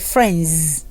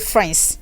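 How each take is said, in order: First: The word ends with a buzzing z sound. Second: The word ends with a hissing s sound. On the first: The speaker calls it right. "No, say friends" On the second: The speaker calls it wrong. "so don't say friends"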